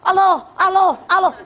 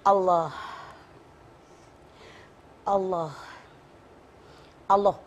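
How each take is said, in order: First: It is said too fast. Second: It is said slowly.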